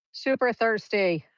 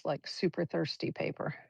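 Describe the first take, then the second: First: Super thirsty punched louder and higher, Super stressed and falling; emphatic repeat. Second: Said in the usual way. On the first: Real, not acted. Painting teacher marvels at paper soaking up ink, emphatic. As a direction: lean hard on Super thirsty.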